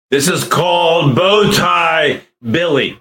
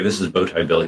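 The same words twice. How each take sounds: First: Slow, high, booming voice changer; loud cartoon voice, drawn out; Bow Tie Billy voice. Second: Said in the usual way. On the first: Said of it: "How does this voice sound?". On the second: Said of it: "That's not the one I'm thinking of".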